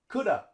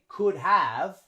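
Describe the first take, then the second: First: Have shrinks to a weak vowel sound. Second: Both words are said fully and separately. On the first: The speaker calls it right. "We say coulda" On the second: The speaker calls it wrong. "we don't say could have"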